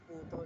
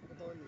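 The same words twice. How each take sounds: First: The stress falls on the first syllable. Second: The stress falls on the last syllable. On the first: The speaker calls it wrong. "hindi putol" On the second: The speaker calls it right. "mabilis ang accent putol"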